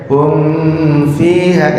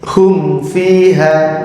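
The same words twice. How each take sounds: First: "hum fiha" with the m bent toward the f; wrong reading. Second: "hum fiha" slow with the m closed cleanly; slow clear recitation. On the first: Teacher showing the forbidden reading. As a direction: say "hum fiha" letting the m slur into the f. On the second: Teacher showing the right reading of "hum fiha". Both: Shown as a demonstration. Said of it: "nggak boleh dibacanya".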